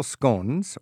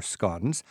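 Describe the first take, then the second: First: Scones with a long o, rhyming with bones; long-o pronunciation. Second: Scones with a short o, rhyming with dons; short-o pronunciation. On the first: Host offering his own way first, scones rhyming with bones. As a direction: say scones as "skones". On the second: Host correcting himself to the guide's way, scones with a short o. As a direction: say scones as "skons". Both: Shown as a demonstration. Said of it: "scones or scones".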